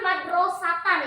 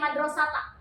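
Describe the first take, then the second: First: The word ends in a full -atan sound. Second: The word ends in an open -ata sound.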